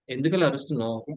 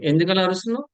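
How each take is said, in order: First: Said in the usual way. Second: Raised, accusing question, pitched higher; a parent scolding a child who shouts; mock scolding. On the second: Teacher acts a scolding question.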